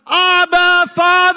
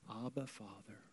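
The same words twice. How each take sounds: First: It is said as a loud, emotional shout. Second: It is said quietly, without a shout.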